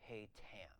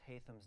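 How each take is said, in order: First: The middle consonant is a plain 't' sound. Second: The middle consonant is a 'th' sound.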